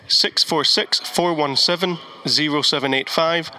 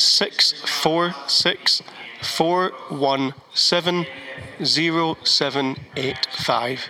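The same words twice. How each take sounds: First: The number is said at a quicker pace. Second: The number is said at a slower pace.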